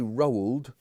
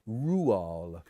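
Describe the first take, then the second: First: The name is pronounced the English way. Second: The name is pronounced the Norwegian way. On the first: The speaker calls it wrong. "They don't say Roald" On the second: The speaker calls it right. "they say Rual"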